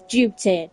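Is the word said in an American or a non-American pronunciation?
non-American. It is said in a non-American pronunciation. The speaker calls it right. "the word is duty"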